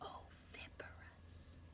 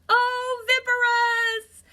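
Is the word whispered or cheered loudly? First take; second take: whispered; cheered. First: The word is whispered softly. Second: The word is cheered out loudly.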